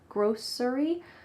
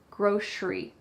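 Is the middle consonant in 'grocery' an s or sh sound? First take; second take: s; sh. First: The middle consonant is a plain s sound. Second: The middle consonant is an sh sound. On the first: "grocery with an S" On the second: "like an S H"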